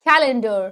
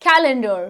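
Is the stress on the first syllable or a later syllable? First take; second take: first; first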